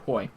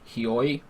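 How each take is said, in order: First: The name is merged into a single syllable. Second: The name is said with two separate syllables. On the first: The speaker calls it right. "some H and E are probably concatenated, and it's like Hoi" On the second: The speaker calls it wrong. "I look at that and I say Hioi"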